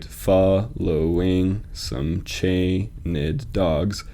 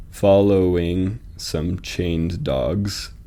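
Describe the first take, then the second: First: "chained" split in two, CHAY-nid, in a very slow reading; slow beat-by-beat line with "chained" as two syllables. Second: Very slow, "chained" and "dogs" both stressed as single beats; slow scansion with two heavy beats, "chained", "dogs". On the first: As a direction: say "chained" as chay-ned, an unstressed beat before "dogs". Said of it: "you almost want to read like chained". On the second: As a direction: lean equally on "chained" and "dogs", one syllable each. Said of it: "chained and dogs are both being emphasized". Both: Shown as a demonstration.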